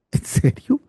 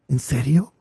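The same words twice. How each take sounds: First: Whispered high, incredulous; second take, a high stunned whisper; whispered disbelief. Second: Low, quiet and doubting; first take, doubting under the breath; incredulous. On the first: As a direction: breathe it high, unable to believe it. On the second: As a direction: ask it low and quiet, in disbelief. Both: Acted. Mocking a widowed pastor's claim.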